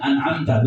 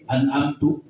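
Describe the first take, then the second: First: The word ends with an a vowel. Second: The word ends with a u vowel. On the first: You gave the favour, addressed to God. The speaker calls it right. "an'amta alaihim, ini khitabnya kepada Allah" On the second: I gave the favour. The speaker calls it wrong. "lu bahaya, saya yang memberikan nikmat"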